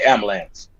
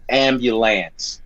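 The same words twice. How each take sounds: First: "ambulance" squeezed to "am-lance"; dropped-syllable pronunciation. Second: "ambulance" in full, "am-byu-lance"; standard pronunciation. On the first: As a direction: swallow the middle of "ambulance", as "am-lance". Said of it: "but we say ambulance". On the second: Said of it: "you could say ambulance". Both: Shown as a demonstration.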